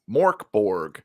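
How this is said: The name is said with an American pronunciation. The speaker calls it wrong. "for Americans"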